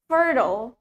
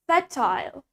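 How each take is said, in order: First: The word is said in an American accent. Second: The word is said in a British accent. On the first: "In American accent, we say fertile" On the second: "That's in British accent"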